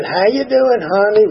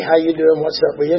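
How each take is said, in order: First: Higher, drawn-out Southern drawl greeting; a sweet Southern drawl, imitated. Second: Said in the usual way. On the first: The matriarch greets him at the meeting, Southern drawl. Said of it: "Real Southern drawl and all that". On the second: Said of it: "she'd say".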